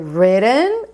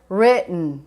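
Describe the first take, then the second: First: The vowel in the last syllable is clearly heard. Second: The vowel in the last syllable is dropped.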